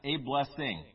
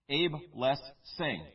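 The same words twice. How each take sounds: First: The words are said quickly and run together. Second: The words are said slowly and separately. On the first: It sounds like a single familiar word. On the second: It sounds like three separate words.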